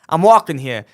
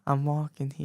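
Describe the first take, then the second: First: It is said forcefully, with real conviction. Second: It is said flatly, without conviction.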